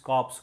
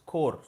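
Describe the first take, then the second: First: The word ends with a clear p and s sound. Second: The word ends on r, with p and s silent. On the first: It names a dead body. The speaker calls it wrong. "please don't tell it's corps. Corps is dead body" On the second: It names a military unit. The speaker calls it right. "C O R P S is pronounced as Corps"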